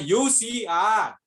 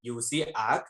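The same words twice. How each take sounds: First: Stretched, raised mock yell; shouted demo. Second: Said in the usual way. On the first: Shown as a demonstration. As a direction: call it out slowly to the friend. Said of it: "उसने जोर से चिल्लाई". (खींचकर ज़ोर से चिल्लाना) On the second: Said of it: "normal वे से दो बार बोला उसने".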